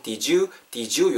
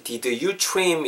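First: "Did you" joined as "dijoo"; linked sounds. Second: "Did you" in separate, careful words; unlinked words. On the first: Teacher showing learners natural joining, "Did you" said "dijoo". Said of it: "요렇게 되죠". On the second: Teacher showing the starting form before linking, "Did you" unlinked. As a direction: keep the d of "Did" apart from "you". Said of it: "자연스럽게 "Did you"가 붙으면은". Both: Shown as a demonstration.

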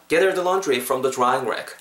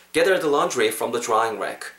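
No difference in how they are said.

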